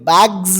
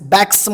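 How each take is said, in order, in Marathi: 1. शब्द घुमणाऱ्या z आवाजाने संपतो. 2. शब्द फुसफुसणाऱ्या s आवाजाने संपतो. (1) "बॅग्स म्हणावं लागेल तुम्हाला" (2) "बॅग्स बॅग्स म्हटले तर चुकलं तुमचं"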